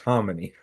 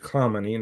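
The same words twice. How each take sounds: First: The name begins with a softer throaty sound. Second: The name begins with a hard K sound. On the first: The speaker calls it right. "No, it's" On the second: The speaker calls it wrong. "everybody puts a K in that and says"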